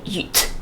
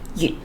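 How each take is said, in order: First: The word ends with a clearly audible t. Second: The word ends without an audible t. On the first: The speaker calls it wrong. "you do not say yut" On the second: The speaker calls it right. "you say you"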